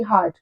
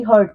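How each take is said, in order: First: "हार्ट" with the open aa of heart; wrong pronunciation. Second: "हर्ट" with the short er sound of hurt; correct pronunciation. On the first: Teacher warning students off the heart sound, long aa. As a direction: says "हार्ट" like heart, the mistake. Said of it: "हार्ट नहीं बोलना है इसको". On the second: Teacher giving students the right hurt vowel. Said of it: "ये है H U R T". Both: Shown as a demonstration.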